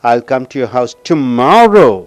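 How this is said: The word tomorrow is stressed. The speaker will come tomorrow, not another day. "நாளைக்கு அழுத்தம் கொடுக்கும்போது"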